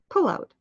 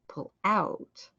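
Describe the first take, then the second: First: The first word is louder than the second. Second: The second word is louder than the first. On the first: It is used as a noun. "If it's a noun, the first part is loud" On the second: It is used as a verb. "If it's a verb, the second part is loud"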